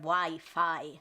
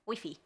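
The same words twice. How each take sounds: First: It is said with an English pronunciation. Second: It is said with a Spanish pronunciation. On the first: "instead of" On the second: "I prefer the Spanish version. I mean, it's technically shorter"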